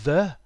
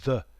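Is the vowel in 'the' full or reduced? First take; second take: full; reduced. First: The vowel is full and clear. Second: The vowel is a very short schwa. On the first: The speaker calls it wrong. "not the" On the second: The speaker calls it right. "It's more like the, very short vowel sound"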